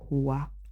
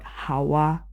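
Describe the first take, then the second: First: The name is pronounced as Hua. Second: The name is pronounced as Hawa. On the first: The speaker calls it right. "My name is Hua" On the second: The speaker calls it wrong. "My name is not Hawa"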